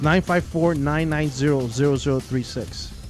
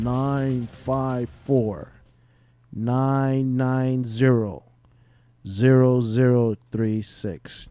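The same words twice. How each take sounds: First: The number is read at a normal, quicker pace. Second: The number is read at a slower pace.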